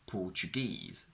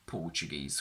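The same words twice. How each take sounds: First: The stress is on the last syllable. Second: The stress is on the first syllable. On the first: The word stands on its own. "on their own have their stress on the last syllable" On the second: The word comes before a noun. "the stress shifts to the front"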